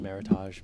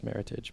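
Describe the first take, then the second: First: The word is said with a French-sounding ending. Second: The word is said with an English-sounding ending. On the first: The speaker calls it wrong. "a lot of people pronounce it Meritage ... it's been sort of Frenchified" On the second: The speaker calls it right. "the correct pronunciation is Meritage"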